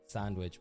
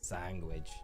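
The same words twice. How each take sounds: First: It is said without a G sound. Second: It is said with a G sound. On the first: The speaker calls it right. "how to pronounce sandwich properly" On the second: The speaker calls it wrong. "Sandwich with a G"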